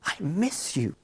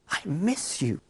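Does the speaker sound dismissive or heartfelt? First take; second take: heartfelt; heartfelt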